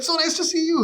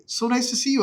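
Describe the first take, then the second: First: Very high, louder gushing echo; squeaky-high mock politeness; awkward echo. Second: High-pitched imitated greeting; raised, over-polite retold voice; awkward pleasantry. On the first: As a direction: parrot the greeting back even higher. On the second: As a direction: mimic polite gushing at a chance meeting. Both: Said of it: "all these awkward run-ins".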